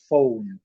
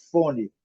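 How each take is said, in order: First: "phone" as fown, no final vowel; English phone. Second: "fone" with open o and final i; Portuguese fone. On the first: Teacher contrasts with the English "phone". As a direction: glide o into u in "phone". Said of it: "eles falam". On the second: Teacher shows the Brazilian way of saying fone. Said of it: "Nós falamos". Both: Shown as a demonstration.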